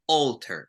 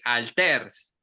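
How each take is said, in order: First: The first vowel is an English-style vowel sound. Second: The first vowel is a Spanish-style open 'ah'. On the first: The speaker calls it right. "No, we say alter" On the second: The speaker calls it wrong. "we tend to use the a as the a ... So we don't say alters"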